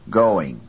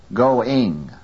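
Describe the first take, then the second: First: GOING with a strong GO and weak ing; stress on first syllable. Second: GOING wrongly stressed on the second syllable, ing; wrongly placed stress. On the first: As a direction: hit the GO of GOING. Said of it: "first syllable go is louder". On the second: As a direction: put the weight on the ING of GOING. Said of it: "from the second to the first". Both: Shown as a demonstration.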